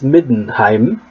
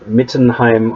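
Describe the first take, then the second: First: The middle consonant is a soft d sound. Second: The middle consonant is a hard t sound. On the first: The speaker calls it right. "It is Middenheim" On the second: The speaker calls it wrong. "not Mittenheim or something"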